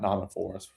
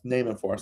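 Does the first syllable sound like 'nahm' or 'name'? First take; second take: nahm; name. First: The first syllable sounds like 'nahm'. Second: The first syllable sounds like 'name'. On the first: The speaker calls it wrong. "not nom and forest" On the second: The speaker calls it right. "It's name and forest"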